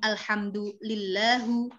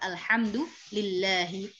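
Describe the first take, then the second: First: The phrase ends with a u vowel. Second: The phrase ends with an i vowel. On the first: The speaker calls it wrong. "Kita nggak bilang alhamdulillahu" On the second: The speaker calls it right. "tetapi alhamdulillahi Rabbil alamin"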